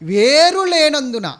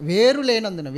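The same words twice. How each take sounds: First: Louder and slow, stretching every syllable of వేరు లేనందున; preacher hammering వేరు లేనందున to the congregation; slow emphatic. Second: Said in the usual way. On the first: Shown as a demonstration. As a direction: drive వేరు లేనందున home slowly and loudly.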